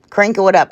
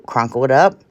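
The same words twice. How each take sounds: First: "crinkle" fixed with a short "ih" vowel, krin-kul, a bit louder; self-correction. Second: "crunkle" said with an "uh" vowel, kruhn-kul; slip of the tongue. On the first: Crafter correcting herself for viewers, "crinkle" said krin-kul. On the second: Crafter misspeaking to viewers, "crunkle" with an "uh" vowel. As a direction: say "crunkle" like a goofy made-up word, kruhn-kul. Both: Shown as a demonstration. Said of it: "I said that on another video".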